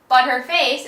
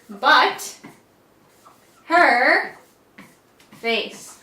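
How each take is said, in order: First: The words are said quickly and run together. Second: The three words are said separately and clearly.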